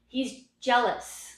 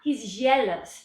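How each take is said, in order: First: The j sound in 'jealous' is snappy. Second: The j sound in 'jealous' is soft. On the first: The speaker calls it right. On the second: The speaker calls it wrong.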